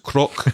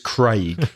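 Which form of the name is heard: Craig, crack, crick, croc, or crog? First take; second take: croc; Craig. First: The name has an 'o' vowel ending in 'k'. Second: The name has the 'ay' vowel, as in 'day'. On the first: This is a mispronunciation others use. The speaker calls it wrong. "to croc" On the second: This is the proper pronunciation. The speaker calls it right. "it's Craig with an A sound"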